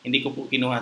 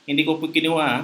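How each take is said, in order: First: The denial is said in a plain, neutral way. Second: The denial is said with strong, insistent emphasis. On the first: It simply answers the question. "Yung walang walang iyo" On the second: The speaker insists they really did not do it. "yung mayo ... in-emphasize mo lang yung sagot mo"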